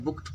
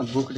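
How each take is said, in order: First: बुक्ड ending in a voiceless T; correct past ending. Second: बुक्ड ending in a voiced D; wrong past ending. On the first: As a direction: say बुक्ड as "bookt". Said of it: "ट sound दे रहा है". (बुक्ड के अंत में ट की आवाज़) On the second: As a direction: say बुक्ड with D after K. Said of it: "नहीं पढ़ते हैं". (बुक्ड के अंत में ड की आवाज़) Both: Shown as a demonstration.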